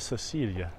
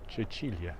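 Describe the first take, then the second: First: It begins with a soft 's' sound. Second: It begins with a 'ch' sound. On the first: The speaker calls it wrong. "Always want to make that soft C" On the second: The speaker calls it right. "instead of a ch sound"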